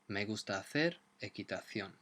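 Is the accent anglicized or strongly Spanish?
strongly Spanish. It is said with a strong Spanish accent.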